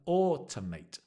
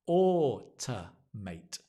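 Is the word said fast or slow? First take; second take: fast; slow. First: The word is said quickly. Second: The word is said slowly. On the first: "Then speed up" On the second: "slow down"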